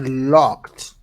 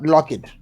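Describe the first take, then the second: First: The ending is a plain t sound. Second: The ending is an extra syllable. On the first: The speaker calls it right. "Yes, I locked" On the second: The speaker calls it wrong. "not lock it, because I know a lot of people make the mistakes by by saying the ed at the end"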